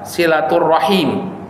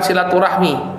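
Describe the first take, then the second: First: The word ends with the syllables ra-him. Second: The word ends with the syllables rah-mi. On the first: This is the original Arabic form. The speaker calls it right. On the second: This is the form adopted into Indonesian. The speaker calls it wrong. "Jadi bukan silaturahmi. Itu bahasa Indonesia"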